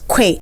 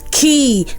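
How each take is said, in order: First: It begins with a kw sound. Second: It begins with a plain k sound. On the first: The speaker calls it wrong. "people pronounce this as que" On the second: The speaker calls it right. "It's pronounced as key"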